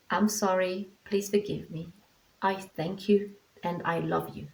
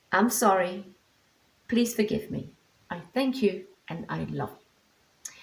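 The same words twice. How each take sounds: First: Tender mantra to the dog. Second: Mantra run through quickly as a sample; quick mantra demo. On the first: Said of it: "So it's like". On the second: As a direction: recite the mantra briskly, just to show it. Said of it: "I go quickly into it". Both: Shown as a demonstration.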